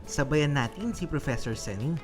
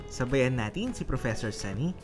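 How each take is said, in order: The two takes are said the same way.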